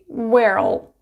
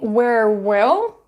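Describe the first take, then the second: First: Will is contracted and joined onto where. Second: The word will is said in full. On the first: "you can say where'll" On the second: "saying where will"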